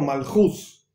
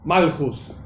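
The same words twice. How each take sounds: First: The stress is on the last syllable. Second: The stress is on the first syllable. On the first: The speaker calls it right. "es la pronunciación correcta" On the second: The speaker calls it wrong. "y no malhus"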